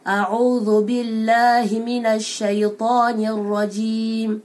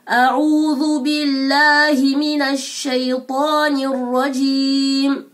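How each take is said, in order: First: The vowels are articulated loosely and without care. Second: The vowels are articulated fully and with care. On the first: The speaker calls it wrong. "je me suis pas concentré sur les voyelles" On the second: The speaker calls it right. "quelqu'un qui se concentre sur les voyelles"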